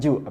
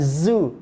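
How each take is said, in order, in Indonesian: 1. Diawali dengan bunyi j. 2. Diawali dengan bunyi z yang berdengung. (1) "bukan ju" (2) "bukan zu"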